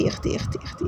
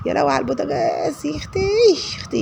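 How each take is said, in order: First: Whispered exasperation under the breath. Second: High-pitched exasperated cry; exclaiming. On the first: Still at the stove, she whispers her dismay. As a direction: breathe it out to herself, voiceless. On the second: A woman exclaims at the stove, high-pitched dismay. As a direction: squeal it out in dismay. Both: Real, not acted.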